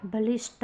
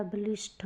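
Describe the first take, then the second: First: बलिष्ठ ending in a hard "ṭ"; wrong, unaspirated. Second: बलिष्ठ ending in breathy "ṭh"; correct, aspirated. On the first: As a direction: say बलिष्ठ as "balisṭ", no puff. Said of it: "नहीं होता". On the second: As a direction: say बलिष्ठ as "balisṭh", with a puff. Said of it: "होता है". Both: Shown as a demonstration.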